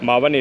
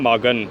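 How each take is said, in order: First: The middle consonant is a v sound. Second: The middle consonant is a k sound. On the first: The speaker calls it wrong. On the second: The speaker calls it right.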